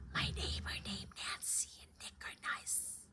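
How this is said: The sentence is whispered. "try to whisper"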